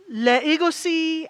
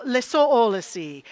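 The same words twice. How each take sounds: First: "legacy" stretched as le-EGO-cy; altered pronunciation. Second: "legacy" drawn out as le-SOUL-acy; French-style coinage. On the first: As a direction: turn "legacy" into le-ego-cy, slowly. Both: Shown as a demonstration. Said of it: "we may say with a French accent".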